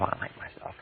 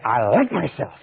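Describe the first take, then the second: First: Whispered; barely whispered under your breath; said to yourself. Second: Said in the usual way. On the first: Shown as a demonstration. Teacher contrasting silent self-talk: whispered. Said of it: "If you say to yourself". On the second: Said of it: "but if you say".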